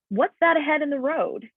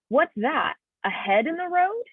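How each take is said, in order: First: It is said as one phrase without a pause. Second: There is a pause after "that".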